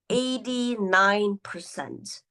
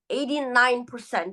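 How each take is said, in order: First: The words are spoken very slowly. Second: The words are spoken at a steady pace. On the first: The speaker sounds sleepy, unsure or dull. The speaker calls it wrong. "this is too slow" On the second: Listeners have time to understand each idea. The speaker calls it right. "A steady pace with natural pauses"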